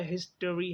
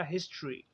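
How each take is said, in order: First: हिस्ट्री as his-tuh-ree, three syllables; full form. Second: हिस्ट्री as his-chree, two syllables; schwa dropped. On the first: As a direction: keep the schwa after t in हिस्ट्री. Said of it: "हम टा निकाल देंगे". (हिस्ट्री पूरा: हिस-ट-री) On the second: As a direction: run t and r together in हिस्ट्री. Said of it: "तो वो बन जाएगा". (हिस्ट्री छोटा करके: हिस-च्री) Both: Shown as a demonstration.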